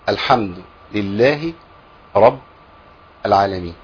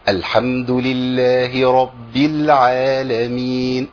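First: It is spoken plainly, like everyday talk. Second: It is drawn out in a melodic reciting style. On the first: This is how one says it in ordinary speech. "ده لو بتكلم" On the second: This is how it is recited as Quran. "القران بقى الحمد لله رب العالمين اداء بس"

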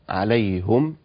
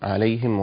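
First: The h is followed by a u vowel. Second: The h is followed by an i vowel. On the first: "حمزة عليهم بضم الهاء" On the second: "حفص يقولها كما سمعتم"

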